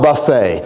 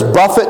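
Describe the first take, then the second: First: The word ends with an 'ay' sound. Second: The word ends with an 'it' sound. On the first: A self-service meal. The speaker calls it wrong. "not buffet" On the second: To strike or beat. The speaker calls it right. "The word there is buffet"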